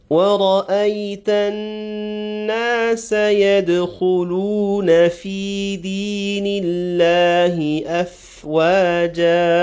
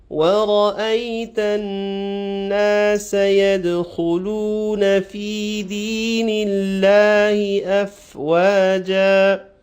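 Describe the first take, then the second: No difference in how they are said.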